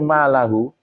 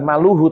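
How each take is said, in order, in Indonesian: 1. Vokal setelah l adalah a. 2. Vokal setelah l adalah u. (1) "tapi malahu, dibaca mansub" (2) "bukan maluhu"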